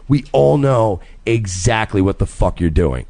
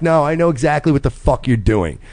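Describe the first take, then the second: First: Retold warning, slow and deliberate; slow pointed call-out. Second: Retold firm, knowing rebuke; pointed call-out tone. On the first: Husband retelling his warning to the flirt, slow and pointed. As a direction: spell it out slowly, every word weighted. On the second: Husband retelling his warning to the flirting guy, pointed and firm. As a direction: let him know you see through it. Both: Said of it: "And I said it in that tone".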